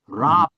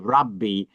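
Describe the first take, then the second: First: The word ends without a final ee vowel. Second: The word ends with a final ee vowel. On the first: This is the ancient form of the title. "in the ancient form, the the way they said it is Rab" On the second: This is the Neo-Aramaic form of the title. "they would pronounce the little I and they say Rabbi"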